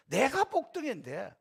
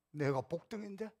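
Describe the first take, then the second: First: 내가 복등인데 said slowly and proudly, rising at the end; proud declaration. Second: 복등인데 stressed softly, rising like a question to oneself; quiet inner question. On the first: Pastor modelling self-esteem for believers, a slow proud 내가 복등인데. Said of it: "이런 자긍심, 자존감이 있어야 돼요". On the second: Pastor's silent reply to a critic, a soft rising 내가 복등인데. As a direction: murmur 내가 복등인데 with a soft rise. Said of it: "속으로". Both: Shown as a demonstration.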